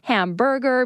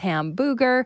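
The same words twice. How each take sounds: First: The word is pronounced in the standard way. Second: The word is pronounced with garbled, childlike sounds. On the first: The speaker calls it right. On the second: The speaker calls it wrong.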